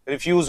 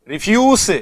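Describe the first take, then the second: First: रिफ्यूज said as the verb refuse, with the stress on the second syllable; verb pronunciation. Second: रिफ्यूज said as the noun refuse, with the stress on the first syllable and rising; noun pronunciation. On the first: Teacher showing students रिफ्यूज as the verb, stressed at the end. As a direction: say रिफ्यूज as the verb, ending in a z sound. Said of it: "जब ये verb होता है तब इसका pronunciation होगा".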